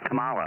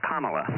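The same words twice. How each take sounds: First: The stress is on a later syllable. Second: The stress is on the first syllable. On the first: The speaker calls it wrong. "not Kamala" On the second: The speaker calls it right. "The emphasis on the first syllable"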